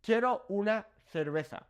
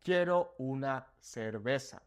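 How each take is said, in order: First: "Quiero una cerveza" with "cerveza" said "therbetha"; Castilian TH. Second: "Quiero una cerveza" with "cerveza" said "serbesa"; Mexican S sound. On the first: Teacher giving the Spain example, "cerveza" with TH sounds. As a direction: say "cerveza" with TH for both C and Z. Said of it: "got that T H sound". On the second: Teacher giving the Mexico example, "cerveza" with S sounds. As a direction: say "cerveza" with S for both C and Z. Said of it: "Whereas in Mexico, I would say". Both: Shown as a demonstration.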